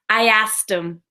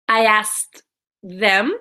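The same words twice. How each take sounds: First: The words run together smoothly and quickly. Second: The words are said slowly and separately. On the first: "linking this together" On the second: "if we're saying it slowly"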